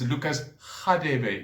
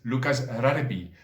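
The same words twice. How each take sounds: First: The name has a South African pronunciation. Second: The name has an English-style pronunciation. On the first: This is the proper pronunciation of the name. "is supposed to be pronounced as" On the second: This is how people in England say it. "perhaps in England is known as"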